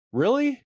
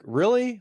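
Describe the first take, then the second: First: High, scoffing rising Really?; condescending. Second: High, scornful falling Really?; condescending. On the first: Inner voice judging a couple, condescending. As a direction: sneer down at the couple in judgment. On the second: Judging a stranger's soda habit, condescending. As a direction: drip with judgment on Really?. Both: Retold or imitated. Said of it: "in a condescending voice".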